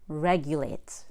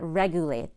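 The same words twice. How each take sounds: First: A 'y' sound comes before the 'u' vowel. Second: No 'y' sound comes before the 'u' vowel. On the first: The speaker calls it right. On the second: The speaker calls it wrong. "It's not"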